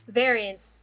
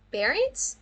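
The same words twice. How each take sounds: First: Variants with a clear v and a falling tune; corrected take. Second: Variants? with a p sound and a rising tune; Variants? said pariants, rising; questioning first take. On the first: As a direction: settle the word Variants firmly. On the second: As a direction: ask Variants? as if unsure of the word. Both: Shown as a demonstration.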